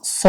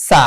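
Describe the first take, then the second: First: "স" as a full, rounded "so"; heavy-s "স"; heavy Saad. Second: "সা" with a thin s and open "aa"; light Seen. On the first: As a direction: say "স" dark and round, like "saw". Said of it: "সদ জবর". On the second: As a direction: say "সা" lightly as saa. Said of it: "সিনের উচ্চারণ হচ্ছে সা". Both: Shown as a demonstration.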